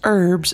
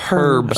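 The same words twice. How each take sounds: First: The word starts with a silent h. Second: The word starts with a pronounced h. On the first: The speaker calls it wrong. "it's not pronounced herbs and spices" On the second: The speaker calls it right. "There's an H in there"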